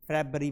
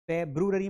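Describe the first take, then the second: First: फरवरी as a shortened "feb-ree"; correct pronunciation. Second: फेब्रुअरी with a full "broo" in the middle; wrong pronunciation. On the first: Teacher giving students the right form, फरवरी as "febri". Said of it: "फरवरी पढ़ेंगे". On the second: Teacher warning students off फेब्रुअरी with its "broo". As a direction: spell out feb-ru-a-ree in फेब्रुअरी. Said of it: "फेब्रुअरी मत पढ़ देना". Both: Shown as a demonstration.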